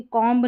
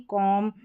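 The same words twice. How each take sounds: First: कॉम्ब with the final b wrongly sounded; mispronounced कॉम्ब. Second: कॉम ending cleanly on m, no b; silent b. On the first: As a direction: voice the b ending कॉम्ब. (कॉम्ब में ब बोलकर ग़लत उच्चारण) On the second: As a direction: close कॉम on the m. (कॉम, बिना ब के) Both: Shown as a demonstration. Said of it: "कॉम्ब नहीं".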